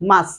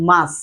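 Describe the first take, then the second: First: The final t sound is dropped. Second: The final t sound is dropped.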